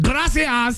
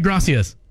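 First: It is said with a Spanish accent. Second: It is said with a plain English accent.

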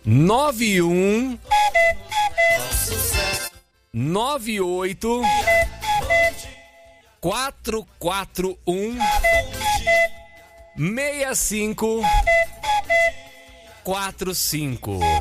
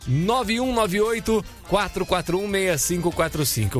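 First: The number is said slowly. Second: The number is said at normal speed.

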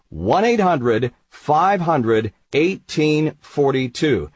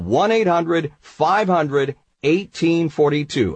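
First: The number is said slowly. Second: The number is said at normal speed.

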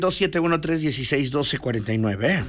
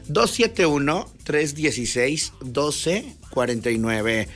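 First: The number is said quickly. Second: The number is said more slowly.

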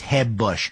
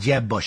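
First: The J is soft, Spanish-style. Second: The J is hard, as in English.

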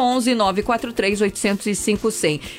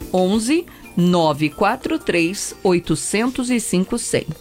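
First: The number is said quickly. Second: The number is said slowly with pauses.

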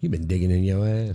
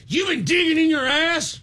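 First: It is said in a flirty tone. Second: It is said in an angry tone.

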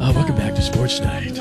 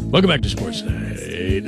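First: It is said in a golf-announcer voice. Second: It is said in a jazz-DJ voice.

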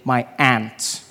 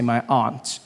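First: Local American accent; aunt sounds like ant. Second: The speaker's own accent; aunt does not sound like ant.

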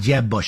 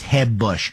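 First: The J is an English J sound. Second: The J is a soft Spanish-style H sound.

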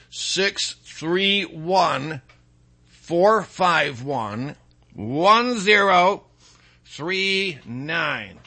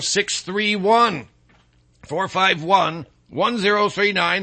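First: The number is said slowly. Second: The number is said at normal speed.

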